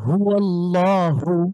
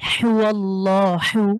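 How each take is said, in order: First: The h is a light, plain breath. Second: The h is pressed hard from the throat. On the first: "আরেকটা হলো হা, যেমন হুয়াল্লাহু" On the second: "এটাকে যদি পড়ি"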